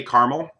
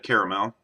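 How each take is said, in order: First: "caramel" said as "CAR-mul"; two-syllable caramel. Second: "caramel" said as "CARE-uh-mel"; three-syllable caramel. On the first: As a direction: drop the middle vowel of "caramel". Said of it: "I've also called it caramel". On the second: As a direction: keep the middle vowel of "caramel". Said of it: "but I've also called it". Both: Shown as a demonstration.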